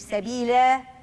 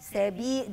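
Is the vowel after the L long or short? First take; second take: Long; Short. First: The vowel after the L is drawn out long. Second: The vowel after the L is kept short. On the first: The speaker calls it wrong. "مش سبيلة" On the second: The speaker calls it right. "دي لام فتحة مش لام ألف"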